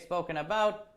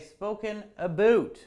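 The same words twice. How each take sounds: First: It uses a pronunciation Canadians do not use. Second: It uses the pronunciation Canadians actually use. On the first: The speaker calls it wrong. "We don't say spoken about" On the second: The speaker calls it right. "we say spoken about"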